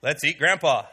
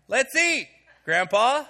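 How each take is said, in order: First: "Let's eat Grandpa" said in one breath, no break after "eat"; no pause, run together. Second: "Let's eat," high and falling, then a pause before "Grandpa"; pause after eat. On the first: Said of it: "You put a little pause in there". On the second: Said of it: "even the way I say it". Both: Shown as a demonstration.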